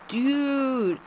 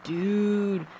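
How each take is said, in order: First: It sounds admiring, like praising someone. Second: It sounds reproachful, like scolding someone.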